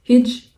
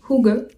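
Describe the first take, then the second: First: The word sounds like 'hidge'. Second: The word sounds like 'hoo-guh'. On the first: The speaker calls it wrong. "vous allez peut-être le prononcer Hidge" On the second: The speaker calls it right. "mais en fait ça se prononce Hugge"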